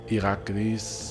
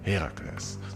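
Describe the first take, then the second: First: The name starts with a vowel sound. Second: The name starts with an H sound. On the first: This is the precise Greek form. "to be precise, it's Iraklis" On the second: This is the simplified English form. "let's keep it simple with the pronunciations"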